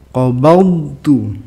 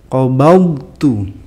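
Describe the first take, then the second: Both takes have the same delivery.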